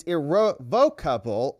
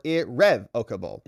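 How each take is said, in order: First: Irrevocable said as ir-ro-VOKE-able; contrasted pronunciation. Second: Irrevocable said as ir-REV-ocable; contrasted pronunciation. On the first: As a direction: hit VOKE in irrevocable with a long o. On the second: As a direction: hit REV in irrevocable with a short e. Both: Shown as a demonstration. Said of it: "hard to tell which syllable".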